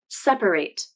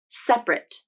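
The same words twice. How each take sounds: First: The word is said with three syllables. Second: The word is said with two syllables. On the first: The word is used as a verb. "I pronounced the verb as three syllables" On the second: The word is used as an adjective. "I pronounced the adjective as two syllables"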